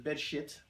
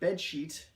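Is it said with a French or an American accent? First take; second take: French; American. First: It is said with a French accent. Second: It is said with a plain American accent.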